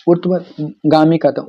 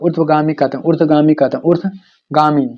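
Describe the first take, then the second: First: Said in the usual way. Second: ऊर्ध्वगामी drawn out syllable by syllable; slow it down so students can write ऊर्ध्वगामी; slow, careful repeat. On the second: Shown as a demonstration. Teacher dictating the new term to students, slow and deliberate. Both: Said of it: "repeats the term for students".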